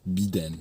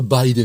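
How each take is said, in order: First: The first vowel sounds like French 'ee'. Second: The first vowel sounds like English 'eye'. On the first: "on va prononcer le i comme il se prononce en français" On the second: "pourquoi tu dis pas Biden"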